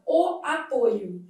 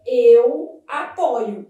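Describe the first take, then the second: First: Slow "apoio" with closed ô. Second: Loud, slow "apoio" with open ó. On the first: Teacher showing the derived noun, closed O. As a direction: round the stressed ô in "apoio". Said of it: "a vogal O fechada". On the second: Teacher showing first person of the verb, open O. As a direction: stress a wide ó in "apoio". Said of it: "apresenta a letra O aberta". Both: Shown as a demonstration.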